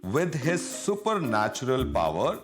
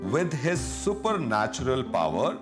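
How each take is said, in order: No difference in how they are said.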